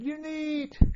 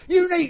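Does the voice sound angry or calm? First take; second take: calm; angry. First: It is said in a calm, even voice. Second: It is said in a lower, angry voice. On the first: The driver is patiently urging the dogs. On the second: The driver has lost his temper with the dogs.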